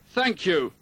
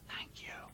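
First: It is said in an angry voice. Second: It is said in a whisper.

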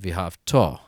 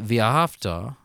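First: The stress falls on the end of the word. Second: The stress falls near the beginning of the word. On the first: The loving will happen in the future. The speaker calls it right. "To convey the meaning of the future tense, it is properly pronounced" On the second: The loving happened in the past and is over. The speaker calls it wrong. "more like we pronounce English, it means past tense"

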